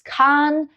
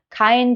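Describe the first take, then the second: First: The vowel is a long a. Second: The vowel is the diphthong ei.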